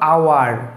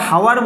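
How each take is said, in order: First: The word begins with a vowel sound. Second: The word begins with an h sound. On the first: The speaker calls it right. "আমরা বলবো আওয়ার" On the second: The speaker calls it wrong. "এটা হাওয়ার বলি না আমরা, হাওয়ার যদি বলি বলবে গ্রামের ধুর"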